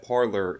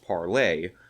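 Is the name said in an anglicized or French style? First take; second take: anglicized; French. First: It is said in an anglicized way. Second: It is said the French way, ending 'lay'. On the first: The speaker calls it wrong. "she kept pronouncing it Parler" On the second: The speaker calls it right. "pronounced parlay ... its original French form"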